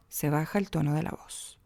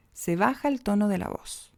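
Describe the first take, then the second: First: "voz" drops low and soft at the close; sentence-final fall on "voz"; falling tone at the end. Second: Said in the usual way. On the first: Shown as a demonstration. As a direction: let "se baja el tono de la voz" sink down at the end. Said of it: "al final ... se baja el tono de la voz". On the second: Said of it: "¿Se fijan?".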